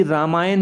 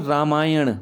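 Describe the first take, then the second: First: रामायण ending in plain dental n; wrong dental n. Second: रामायण ending in a curled-back ṇ; correct retroflex n. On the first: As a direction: say रामायण with the tongue forward on n. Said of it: "नहीं होता बच्चों". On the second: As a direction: curl the tongue to end रामायण. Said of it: "ण आएगा". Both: Shown as a demonstration.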